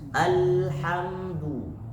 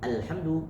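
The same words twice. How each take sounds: First: The l is held briefly for one beat. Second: The l runs straight into the next sound. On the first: The speaker calls it right. "berikan dia seakan-akan satu ketukan, satu harokat" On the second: The speaker calls it wrong. "nggak boleh dibaca langsung"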